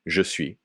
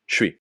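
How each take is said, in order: First: Both words are said fully and separately. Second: The first word is dropped into one syllable. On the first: "what you learned" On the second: "casual pronunciation"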